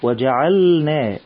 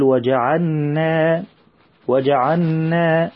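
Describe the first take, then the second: First: وجعلنا slow, lam fully pronounced before the noon; clear lam. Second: وجعلنا with the lam merged into the noon, as وجعنّا; mimicking the mistake. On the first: Shown as a demonstration. Teacher shows the children how to pronounce the lam. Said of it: "نبين اللام". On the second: Teacher imitates the children's common mistake. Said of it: "وهذا خطأ".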